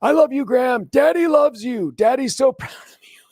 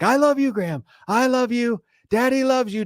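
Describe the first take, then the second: First: High, loud gushing dad voice; hammed-up doting father yelling across the school; proud dad yelling. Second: High, hammed-up doting father; mock gushing dad. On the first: Dad yelling love at his son on first day, high and loud. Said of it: "yelling at the top of his lungs". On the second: Dad retelling his own yell, high and gushing. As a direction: gush it out like the embarrassing dad again. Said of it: "And I'm like".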